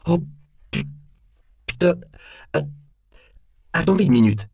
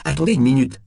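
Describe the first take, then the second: First: Broken, stuttering high and loud plea; flustered, stop-start stutter with pitch shooting up; panicked stammer. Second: High, loud plea without a stutter; alarmed repeat. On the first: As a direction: stammer in alarm, breaking off words. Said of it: "bégaya Temple". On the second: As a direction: repeat it urgently, pitched up. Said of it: "répéta Temple". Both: A narrator's reading.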